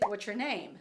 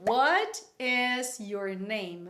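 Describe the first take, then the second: First: The words are run together and reduced. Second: Every word is said slowly and in full. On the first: The speaker calls it right. "Vai ficar basicamente" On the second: The speaker calls it wrong. "ninguém fala devagar assim"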